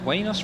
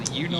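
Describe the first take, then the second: First: The name begins with a 'wah' sound. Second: The name begins with a 'you' sound. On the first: The speaker calls it wrong. "was it the Wanos Roadster? Is that how they pronounced it?" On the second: The speaker calls it right. "Or the Unos"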